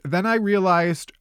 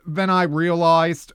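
First: It is said in the speaker's plain accent. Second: It is said in an attempted Boston accent.

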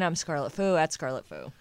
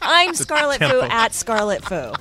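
First: It is said flatly with low energy. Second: It is said with lively, high energy. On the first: The speaker calls it wrong. "Come on, Scarlett. That's not the" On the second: The speaker calls it right. "That's the energy we want"

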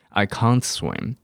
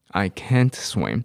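First: It is spoken in a British accent. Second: It is spoken in an American accent. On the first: "可是英国人很夸张，是I can't swim" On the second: "美式英文是不是讲I can't swim"

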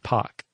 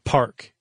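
First: The R sound after the vowel is dropped. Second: The R sound after the vowel is pronounced. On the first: "Non-rhotic would be like pock" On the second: "Rhotic is where the R is hard. Like park"

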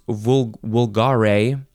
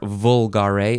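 First: The word does not begin with a V sound. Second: The word begins with a V sound.

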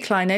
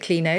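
First: The first vowel is long, as in 'line'. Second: The first vowel is short, as in 'tin'. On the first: "It could be clino because you've got recline" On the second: "I pronounce it clino"

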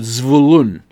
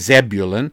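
First: The stress falls on the second syllable. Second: The stress falls on the first syllable. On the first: This is the Hebrew pronunciation of the name. "in Hebrew the emphasis goes on the second part of the word" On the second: This is the English pronunciation of the name. "So in English we say Zebulun"

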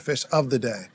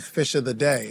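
First: Each word is said clearly and separately. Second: The words are slurred together. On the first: The speaker calls it right. "instead of" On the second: The speaker calls it wrong. "I would slur my words and say"

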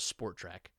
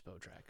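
First: The first syllable is sport, with an R sound. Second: The first syllable is spot, with no R sound. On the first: The speaker calls it wrong. "I've always read it as Sport Track. Like, and clearly I'm wrong" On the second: The speaker calls it right. "I've never read it as Spotrac"

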